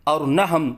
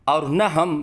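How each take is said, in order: Both takes have the same delivery.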